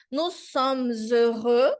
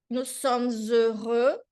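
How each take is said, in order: First: "nous sommes heureux" as nu somz øʁø, slow; slow French. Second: "nous sommes heureux" again, slow with a rising end; slow French. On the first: Teacher reading the phrase slowly to students. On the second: Teacher repeating the phrase slowly for students. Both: Shown as a demonstration.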